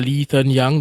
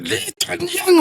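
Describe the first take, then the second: First: The name is called out calmly and flatly. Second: The name is called out sternly and sharply. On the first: A stranger is simply calling the person. "they say it calmly" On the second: The person is in trouble. "when your mom says it"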